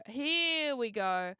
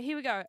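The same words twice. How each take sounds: First: HERE stretched long and slow; drawn-out. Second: Said in the usual way. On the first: Real, not acted. Streamer about to show the video, drawn-out HERE. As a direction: draw out "Here" before "we go". Same words, now stretched out.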